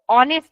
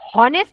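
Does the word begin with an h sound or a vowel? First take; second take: vowel; h sound. First: The word begins directly with a vowel. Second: The word begins with an h sound. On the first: The speaker calls it right. "ऑनेस्ट असा होतो" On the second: The speaker calls it wrong. "याचा उच्चार हॉनेस्ट असा नाही होत"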